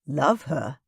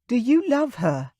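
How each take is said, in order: First: Said in the usual way. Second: Put-on higher, pleading young woman's voice; Kayla asking. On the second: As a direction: ask it anxiously in a lifted voice. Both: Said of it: "I repeated".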